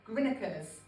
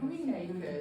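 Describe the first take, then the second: First: The name is clipped to a short local form. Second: The name is said fully as spelled. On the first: The speaker calls it right. "I know how to pronounce this now" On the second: The speaker calls it wrong. "First time round, I said in Greenacres, and everybody shouted at me"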